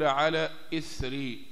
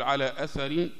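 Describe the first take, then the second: First: The word begins with an 'i' vowel. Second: The word begins with an 'a' vowel.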